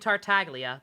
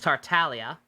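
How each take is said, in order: First: The G sound is clearly pronounced. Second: The G sound is left silent. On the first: The speaker calls it wrong. "I was pronouncing Tartaglia wrong this entire time" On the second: The speaker calls it right. "The G is apparently silent"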